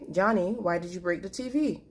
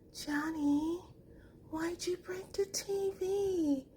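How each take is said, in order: First: It is said in a firm, emphatic tone. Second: It is said in a soft, sweet tone.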